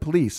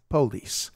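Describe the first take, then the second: First: The stress is on the last syllable. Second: The stress is on the first syllable. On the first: "instead of police" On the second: "the Southern way to pronounce things is to emphasize the first syllable"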